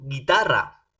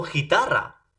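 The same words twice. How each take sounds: First: Guitarra with a hard G, like gato; guitarra said gee-TAH-rra, U silent; guitarra said right. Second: Guitarra said with a J sound, xitarra; guitarra with a raspy Spanish J, hee-TAH-rra; wrong G sound. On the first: Student showing the professor the word: guitarra with hard G. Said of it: "ese guitarra". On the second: Student showing the professor the wrong reading: guitarra with a J sound. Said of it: "no digo guitarra". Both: Shown as a demonstration.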